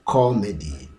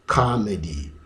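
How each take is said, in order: First: "comedy" as KAW-muh-dee, rounded first vowel; singular with "co". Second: "comedy" as KAH-muh-dee, open first vowel; singular with "ka". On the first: Teacher showing the singular, rounded "co" variant. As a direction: stress rounded "co" in "comedy", neutral middle. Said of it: "the middle syllable has the uh". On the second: Teacher showing the singular, open "ka" variant. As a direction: stress open "ka" in "comedy", neutral middle. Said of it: "pronounced as the sound ka". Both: Shown as a demonstration.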